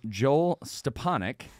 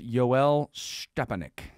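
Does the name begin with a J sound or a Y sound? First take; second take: J sound; Y sound. First: The name begins with a J sound. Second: The name begins with a Y sound. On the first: This is the name's proper form. "properly pronounced name" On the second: This makes the name sound Russian. "he also likes to be called Yoel Stepanek"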